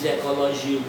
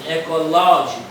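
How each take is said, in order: First: The stress falls on a different syllable. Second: The stress falls on the syllable ló. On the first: The speaker calls it wrong. "você não diz ecológico" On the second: The speaker calls it right. "Você diz ecológico"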